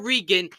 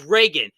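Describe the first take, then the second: First: Regan said REE-gun, long ee; mispronounced name. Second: Reagan said RAY-gun, long ay; corrected pronunciation. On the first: Host showing the wrong way, Regan said REE-gun. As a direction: give Regan an ee in the first syllable. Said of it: "It's not Regan". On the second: Host correcting YouTubers, Reagan said RAY-gun. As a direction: give Reagan an ay in the first syllable. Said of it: "it's Reagan". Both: Shown as a demonstration.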